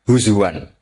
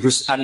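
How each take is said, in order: First: A w sound sits in the middle. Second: A glottal stop sits in the middle.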